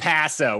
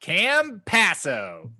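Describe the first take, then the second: First: Campasso as plain English cam-PASS-o; Americanized pronunciation. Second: Campasso dragged out very slowly as CAM-PASS-O; exaggerated Americanized pronunciation. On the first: Host deliberately butchering the player's name, Americanized pronunciation. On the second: Host showing off the butchered name for laughs, exaggerated Americanized pronunciation. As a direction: stretch each syllable of Campasso in blunt American English. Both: Shown as a demonstration. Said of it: "absolutely fucking Americanize and butcher his name".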